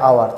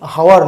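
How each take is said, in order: First: The word begins directly with a vowel. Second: The word begins with an h sound. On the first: The speaker calls it right. "এটা আওয়ার" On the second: The speaker calls it wrong. "এটা কিন্তু হাওয়ার নয়"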